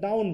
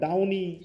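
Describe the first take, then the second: First: The word ends on the n sound. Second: The word ends with an added vowel sound. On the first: The speaker calls it right. "আমি ডাউন বলতেছি" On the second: The speaker calls it wrong. "আমি ডাউনি বলছি না"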